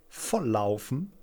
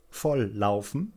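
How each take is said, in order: The two takes are said the same way.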